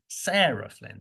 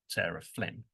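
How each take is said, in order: First: The stress falls on the word Sarah. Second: The stress falls on the word Flynn. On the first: She is being told apart from another person with the same surname. "it's not the same word that we stress every time" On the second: She is simply introducing herself. "she'll probably um, stress that Flynn"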